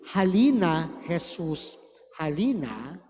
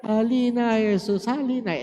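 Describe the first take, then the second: First: Quiet congregational singing; softly sung hymn. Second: Sung, hammed-up weepy hymn, starting higher; mock tearful singing. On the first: Retold or imitated. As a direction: hum the hymn line gently, fading at the end. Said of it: "So, when you sing". (sung, mahinang pag-awit ng himno) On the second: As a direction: pretend to be near tears while singing. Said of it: "Naiiyak ka pa". (sung, kunwaring naiiyak na pag-awit)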